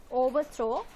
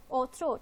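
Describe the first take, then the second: First: Overthrow said in full, three clear syllables o-ver-throw. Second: Overthrow squeezed into two syllables, o'erthrow; elided overthrow. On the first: Teacher shows students the full three syllables, careful and clear. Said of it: "that usually carries three syllables". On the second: Teacher shows students the elided two-syllable form. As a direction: clip overthrow down to two beats. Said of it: "overthrow, two syllables". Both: Shown as a demonstration.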